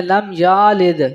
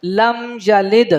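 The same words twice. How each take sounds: First: "لم یالد" with ya stretched to yaa; wrong long ya. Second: "لم یلد" slow hummed lam, quick short ya; correct short ya. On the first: Teacher shows how some read it, lengthened "لم یالد". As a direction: drag the middle of "لم یالد". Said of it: "یہ بھی غلط ہو جائے گا". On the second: Teacher corrects the reading, "لم یلد" with brief ya. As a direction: move swiftly over ya in "لم یلد". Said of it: "جلدی پڑھا جائے گا". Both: Shown as a demonstration.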